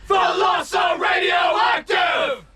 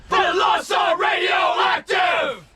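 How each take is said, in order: No difference in how they are said.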